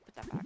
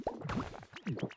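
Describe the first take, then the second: First: Said in the usual way. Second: Drawn-out whisper, lower; slow whispered repeat. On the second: Real, not acted. Streamer to herself, a slow whispered put that back. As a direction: breathe it out slowly.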